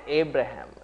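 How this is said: The name is said with a Western pronunciation. This is how outsiders say it. "They call it Abraham"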